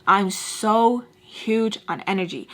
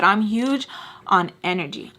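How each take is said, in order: First: "so" drawn out slowly, then slow "huge on energy"; slow right down and lean on "so"; stress on SO. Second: Said in the usual way. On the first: Real, not acted. Vlogger explaining her belief in energy, "so" stretched for emphasis.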